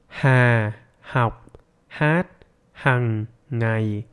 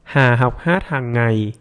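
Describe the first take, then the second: First: It is spoken very slowly, word by word. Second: It is spoken at a normal conversational speed.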